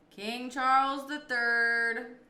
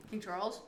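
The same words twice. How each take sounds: First: Slow, louder royal announcement; King Charles the Third, slow and grand; grand, drawn-out title. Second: Said in the usual way. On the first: Real, not acted. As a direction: stretch it out like a herald. Answers with the full royal title.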